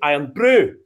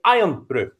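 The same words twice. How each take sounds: First: The stress falls on the word brew. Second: The stress falls on the word iron. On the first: "if the accent was in the brew, you'd say" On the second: "there's an accent on the iron, you'd say"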